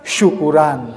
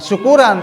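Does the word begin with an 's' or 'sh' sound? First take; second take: sh; s. First: The word begins with an sh sound. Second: The word begins with a plain s sound. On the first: It means a gathering to give thanks. The speaker calls it right. "dengan kalimat sya" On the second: It sounds like a word about getting drunk. The speaker calls it wrong. "bukan syukuran"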